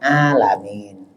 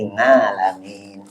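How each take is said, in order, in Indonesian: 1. Kata ini diawali bunyi vokal biasa. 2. Kata ini diawali bunyi sengau ng. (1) "Jangan juga pakai bahasa orang Jakarta" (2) "jangan pakai bahasa Purwokerto"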